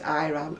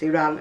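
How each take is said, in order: First: It uses the pronunciation not used in Britain. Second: It uses the pronunciation used in Britain. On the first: This is how people elsewhere say it. "We don't recognise Iran" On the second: This is how people here say it. "It's Iran and Iraq over here"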